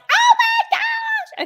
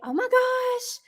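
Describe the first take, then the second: First: It is said with wild, over-the-top excitement. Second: It is said with warm, moderate enthusiasm.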